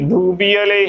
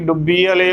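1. ਪਹਿਲਾ ਸਵਰ ਲੰਮੀ u ਆਵਾਜ਼ ਹੈ। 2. ਪਹਿਲਾ ਸਵਰ ਛੋਟੀ u ਆਵਾਜ਼ ਹੈ। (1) "ਡੂਬੀ ਵਾਲੇ ਹੀ ਉਚਾਰਨ ਕਰਨਾ ਹੈ" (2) "ਡੁੱਬੀ ਵਾਲੇ ਗਲਤ ਉਚਾਰਨ ਹੋਵੇਗਾ"

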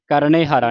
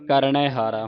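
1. ਪਹਿਲਾ ਸ਼ਬਦ 'e' ਮਾਤਰਾ ਨਾਲ ਖ਼ਤਮ ਹੁੰਦਾ ਹੈ। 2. ਪਹਿਲਾ ਸ਼ਬਦ 'ai' ਮਾਤਰਾ ਨਾਲ ਖ਼ਤਮ ਹੁੰਦਾ ਹੈ।

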